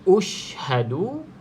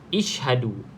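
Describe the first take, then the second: First: The word begins with a u vowel. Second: The word begins with an i vowel. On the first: "Jawapan B ushhadu ... B baris depan" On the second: "kita bariskan dengan baris bawah"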